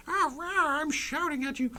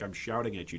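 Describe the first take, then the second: First: Mock shouting. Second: Said in the usual way. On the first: Streamer joking that he is shouting at viewers, mock shouting. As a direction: squeal out a joke tantrum, far above your usual pitch. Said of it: "like I'm shouting at you". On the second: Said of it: "don't feel like I'm shouting".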